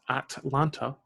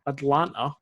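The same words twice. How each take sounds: First: The middle T sound is clearly pronounced. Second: The middle T sound is dropped completely. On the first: "I'll say it with less of an accent" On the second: "I completely missed out the T"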